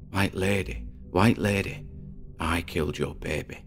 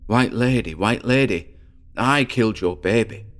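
First: It is said quietly, almost whispered. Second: It is said a bit louder.

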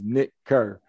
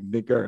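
First: The name is said at normal speed. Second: The name is said fast, run together.

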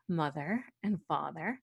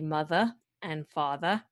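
First: It is said with the R sounds pronounced. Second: It has a Brooklyn accent with R dropped.

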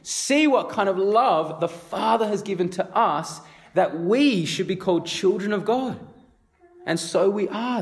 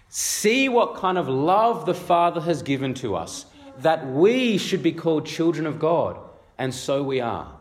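First: It is said with amazed disbelief. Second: It is read in a plain, even tone.

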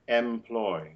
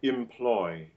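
First: The first vowel is an open e. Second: The first vowel is a short, light i. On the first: The speaker calls it wrong. "We don't want to have an open epsilon e in that syllable?" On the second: The speaker calls it right. "most British speakers would realize that like an open I"

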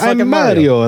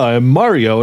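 First: It is said in an exaggerated Italian accent. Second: It is said in a plain, non-Italian accent. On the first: This is how the game character sounds. The speaker calls it right. "they want him to sound like he's from the video game" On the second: The actor is not trying to sound like the game character. The speaker calls it wrong. "he doesn't sound Italian at all"

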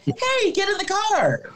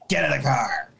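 First: It is said in a friendly, nice tone. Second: It is said in a creepy, sinister tone.

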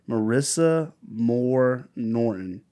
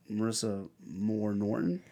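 First: The voice falls at the end. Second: The voice rises at the end.

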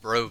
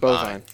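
First: An r sound follows the first b. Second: No r sound follows the first b. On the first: The speaker calls it wrong. "It's not brovine" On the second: The speaker calls it right.

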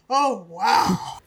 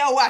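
First: It is said in an ecstatic, breathless tone. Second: It is said in a plain, ordinary tone. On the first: "in a tone of voice that suggests she just had a mind-blowing orgasm" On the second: "She doesn't just say"

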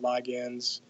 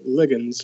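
First: The word has the American pronunciation. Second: The word has the British pronunciation.

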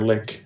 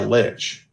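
First: The word ends with a 'k' sound. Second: The word ends with a 'ch' sound.

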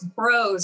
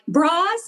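First: The vowel sounds like the one in 'bro'. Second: The vowel sounds like the one in 'bra'. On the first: The speaker calls it right. "no, it's Bros. It rhymes with bros" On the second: The speaker calls it wrong. "people would mispronounce it Bras"

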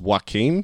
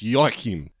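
First: The name sounds like the name Joaquin. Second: The name does not sound like Joaquin. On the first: The speaker calls it wrong. "they mispronounce it as Joachim, sort of like Joaquin Phoenix" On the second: The speaker calls it right. "no, it's Joachim"

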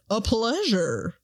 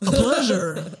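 First: It is said in a lighter voice. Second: It is said in a gruff, deep voice.

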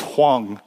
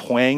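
First: The surname is said in its original form. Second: The surname is said in an anglicized form. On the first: This is how the family says the name. The speaker calls it right. "It's Hwang" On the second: This is how people in the town said the name. The speaker calls it wrong. "I was known as Hwang"

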